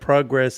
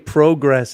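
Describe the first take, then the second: First: It is said with a non-Canadian pronunciation. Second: It is said with a Canadian pronunciation. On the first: "instead of progress" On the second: "you say progress"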